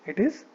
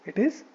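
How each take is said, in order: Both takes have the same delivery.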